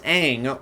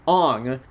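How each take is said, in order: First: The name is said with an open 'ah' vowel. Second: The name is said with a rounded 'oh' vowel. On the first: The speaker calls it right. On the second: The speaker calls it wrong.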